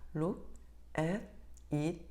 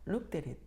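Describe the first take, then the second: First: Each word is said separately, without linking. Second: The words are linked smoothly into one unit. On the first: The speaker calls it wrong. "파닉스를 배운 많은 아이들이 이렇게 읽습니다" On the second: The speaker calls it right. "그런데 이렇게 읽는 아이들이 있습니다"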